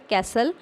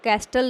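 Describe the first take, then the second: First: The t sound is silent. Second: The t sound is pronounced in the middle. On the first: The speaker calls it right. "इसमें टी जो है वो silent है" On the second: The speaker calls it wrong. "इस word को कैस्टल नहीं पढ़ना है"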